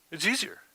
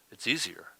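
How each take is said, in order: First: "easier" said again much higher, mock sing-song; mocking high echo of "easier". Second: Said in the usual way. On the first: Shown as a demonstration.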